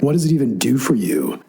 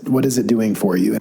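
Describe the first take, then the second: First: It is said in a sarcastic tone. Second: It is said in a serious tone.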